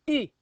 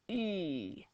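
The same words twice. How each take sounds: First: The vowel is shorter and stronger. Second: The vowel is longer and softer. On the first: "make that a little bit shorter and a little bit stronger" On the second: "And you might go"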